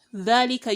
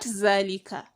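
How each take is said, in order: First: The word begins with a voiced th sound. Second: The word begins with a z sound. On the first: The speaker calls it right. "your teeth will be on your tongue" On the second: The speaker calls it wrong. "so not zalika"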